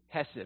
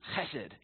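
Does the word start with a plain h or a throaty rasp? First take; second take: plain h; throaty rasp. First: It starts with a soft, plain h sound. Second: It starts with a raspy, throat-cleared h sound.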